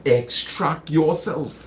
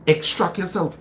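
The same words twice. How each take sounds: First: Slower repeat. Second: Said in the usual way. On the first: Shown as a demonstration.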